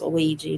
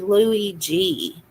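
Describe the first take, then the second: First: The name is said smoothly as one word. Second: The name is split into two separate parts. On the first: The speaker calls it right. "I think it's Luigi" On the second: The speaker calls it wrong. "they say Louis and then G"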